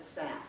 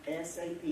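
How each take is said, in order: First: It is said as a single word. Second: It is said as three separate letters. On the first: The speaker calls it wrong. "Don't ever call it S A F" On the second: The speaker calls it right. "it takes longer to say it"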